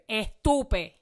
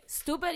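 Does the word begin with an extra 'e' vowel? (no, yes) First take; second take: yes; no. First: It starts with an added 'e' vowel. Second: It starts directly with the 's' sound. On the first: "That's estupid with an accent. Estupid takes more time and more energy" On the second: "stupid is quicker"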